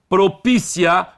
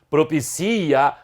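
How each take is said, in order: First: The stress falls on the syllable pi. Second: The stress falls on the syllable ci. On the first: It is the adjective form. "a sílaba tônica é anterior" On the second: It is the verb form. "a sílaba tônica é o si"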